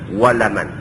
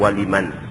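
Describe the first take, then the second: First: The second syllable has an 'a' vowel. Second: The second syllable has an 'i' vowel. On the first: The speaker calls it right. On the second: The speaker calls it wrong.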